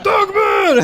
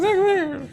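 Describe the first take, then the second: First: It is said loudly, with lots of energy. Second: It is said quietly, with little energy.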